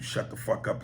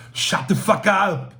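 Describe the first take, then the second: First: Said in the usual way. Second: Put-on high, loud, slow Austrian-accented shout; hammed-up Austrian action-hero yell; Schwarzenegger. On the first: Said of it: "Hearing Schwarzenegger tell someone". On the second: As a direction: bellow it slowly with an Austrian accent. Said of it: "Hearing Schwarzenegger tell someone to shut the fuck up".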